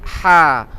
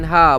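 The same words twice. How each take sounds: First: The h is a strong friction from mid-throat. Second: The h is a plain, light breath. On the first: The speaker calls it right. "ha pedas... dari tengah-tengah halqi" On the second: The speaker calls it wrong. "Dia bukan ha"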